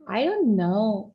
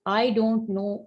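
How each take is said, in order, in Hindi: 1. इसे बढ़ा-चढ़ाकर उच्च-वर्गीय लहज़े में कहा गया है। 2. इसे सीधे, सादे लहज़े में कहा गया है। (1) "इस किस्म की खतरनाक किस्म की अल्फ आवाजें भी उसमें जो है वो ऊपर ऐड कर देते हैं" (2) "आई डोंट नो भी इजी है"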